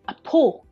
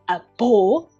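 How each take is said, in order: First: The second word begins with a voiceless p sound. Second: The second word begins with a voiced b sound. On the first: This is the normal spoken form. "but we pronounce a po" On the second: This follows the spelling. "spelling is a bo"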